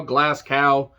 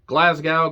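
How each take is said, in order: First: Glasgow said with a hard k, "GLASS-cow"; pronunciation variant. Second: Glasgow said with a clear g, "GLAZ-gow"; pronunciation variant. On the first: Reviewer trying out the city's name, Glasgow as "GLASS-cow". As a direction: make the g in Glasgow a k. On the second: Reviewer trying out the city's name, Glasgow with a g. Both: Shown as a demonstration. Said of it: "Some people pronounce it differently".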